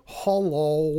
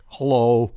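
First: Lightly mimicked drawn-out hello; mocking impression. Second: Louder, lower hello; corrected hello. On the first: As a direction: do a light imitation of his hello. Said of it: "You went". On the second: Retold or imitated. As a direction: say it louder, the way he really did. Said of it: "No, it's more like".

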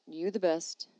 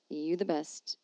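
The two takes are said the same way.

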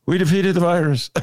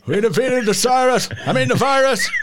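First: A light, slightly raised take on Biden; half-hearted Biden voice, then gives up; Joe Biden imitation. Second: Higher, louder mock Biden, hammed up; Biden imitation. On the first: Host doing a quick Biden for the producer, lightly voiced. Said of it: "here's my Joe Biden imitation". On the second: Producer mocking Biden off the cuff to the host, hammed up. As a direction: ham up a rambling Biden. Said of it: "that's your imitation of Biden".

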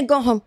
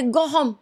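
First: "Go home." repeated as a light mock learner's guess; a hint of a hesitant learner saying "Go home."; mock non-native speaker, second try. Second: Mildly imitating someone unsure of "Go home."; a hint of a learner testing "Go home."; mock non-native speaker. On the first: Host mimicking a fake learner trying again, lightly. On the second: Host mimicking a fake learner's phrasing, lightly. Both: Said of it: "she's struggling to get the verbiage right".

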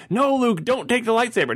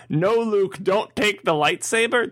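First: Put-on higher, pleading child's voice; a young fan begging the hero not to do it; kid pleading with the screen. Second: Put-on higher, slower child's plea; a seven-year-old begging the hero; kid pleading with the screen. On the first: Child in the audience begs Luke, raised pleading voice. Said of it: "I remember being a kid going". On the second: Seven-year-old in the audience pleads with Luke, high and slow. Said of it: "seven-year-old kid to go".

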